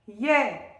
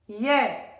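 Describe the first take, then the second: Both takes have the same delivery.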